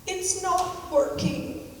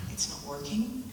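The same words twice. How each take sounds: First: High, slow, whiny little complaint; imitating a stepson's plaintive wail; plaintive sad voice. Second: Said in the usual way. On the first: Stepson stuck in the kitchen, complaining to stepmother, plaintive and sad. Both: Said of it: "this very plaintive, sad voice".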